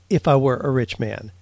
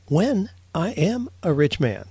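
First: Said in the usual way. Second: "When" hit and falling, confident; stress on when. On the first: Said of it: "would never say". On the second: Shown as a demonstration. Host quoting the rabbi, confident stress on when. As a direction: punch "When" like a sure promise. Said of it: "would always say".

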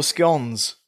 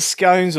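First: "scones" with a short o, rhyming with dons. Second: "scones" with a long o, rhyming with cones. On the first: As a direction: say "scones" to rhyme with cons. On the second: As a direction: say "scones" to rhyme with stones. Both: Shown as a demonstration. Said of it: "Is it scones or scones?".

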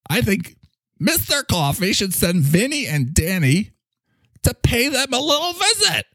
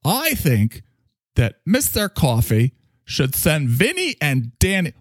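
First: High, hammed-up New York tough-guy accent; Mister Coffee's New York accent, played broad; New York mobster accent. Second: Said in the usual way. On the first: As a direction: lean into a mob New York accent, threatening a visit. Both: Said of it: "A little better on the New York accent".

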